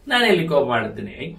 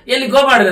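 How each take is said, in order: First: It is said in a softer voice. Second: It is said in a louder voice.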